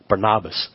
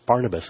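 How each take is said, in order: First: It is said in the unfamiliar Greek-style way. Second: It is said in the familiar English way. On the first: "some pronunciation that I'm hearing that is different from what we're used to" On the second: "I thought it was Barnabas"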